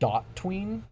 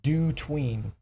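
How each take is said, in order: First: The first part sounds like 'dot'. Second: The first part sounds like 'do'. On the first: It is read as a later version of HOTween. "So it's actually pronounced dot tween" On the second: It is read as the verb 'do', as in doing a tween. "I like to call it do tween because it just makes more logical sense that it's doing something like do fade or do move"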